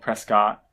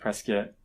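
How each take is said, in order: First: The last syllable sounds like 'cot'. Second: The last syllable sounds like 'kit'. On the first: This follows the written spelling. "spelled Prescott" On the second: This is how the locals say it. "everyone pronounces it Prescott, as in like rhyming with biscuit"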